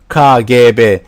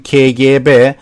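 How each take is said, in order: First: The letter K is said as ka. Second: The letter K is said as ke. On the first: This is how people actually say it. "Turkish people use as this K K. They say K" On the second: This is the standard letter name. "Normally in Turkish it must be K G B"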